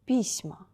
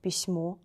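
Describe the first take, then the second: First: Письма stressed on и, falling; stress on first vowel. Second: Письмо stressed on final о; stress on last O. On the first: Teacher contrasts plural with singular, first-vowel stress. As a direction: say PISma, weight on the start. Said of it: "first vowel should be stressed". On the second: Teacher contrasts singular with plural, final stress. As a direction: say pisMO, weight on the end. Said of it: "We change place of accent". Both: Shown as a demonstration.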